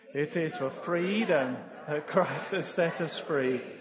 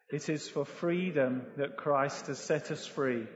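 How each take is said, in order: First: It is read with strong conviction. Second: It is read flatly, without conviction.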